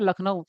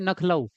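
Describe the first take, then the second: First: The word begins with an L sound. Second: The word begins with an N sound. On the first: The speaker calls it right. "लखनऊ होता है ना" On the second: The speaker calls it wrong. "तो उसको बोलते हैं नखलऊ"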